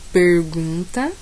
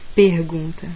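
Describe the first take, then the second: First: It is said in a São Paulo interior accent. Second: It is said in a Northeastern Brazilian accent. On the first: "Interior paulista"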